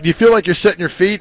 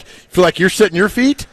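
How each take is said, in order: First: Reporter's question. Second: Mock echo back. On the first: Retold or imitated. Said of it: "media question mimicked". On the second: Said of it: "If I'm Cam Ward, I'm like".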